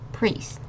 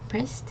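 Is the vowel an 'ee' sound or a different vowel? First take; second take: ee sound; different vowel. First: The vowel is a clear 'ee' sound. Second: The vowel is not an 'ee' sound. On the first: The speaker calls it right. "this I and the E makes a E sound again" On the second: The speaker calls it wrong. "not priest"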